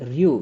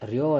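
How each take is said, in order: First: The syllable ends in a long u. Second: The syllable ends in a short o. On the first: The speaker calls it right. "ರಿ ಯು ರ್ಯೂ" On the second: The speaker calls it wrong. "ರ್ಯೋ ಅಲ್ಲ"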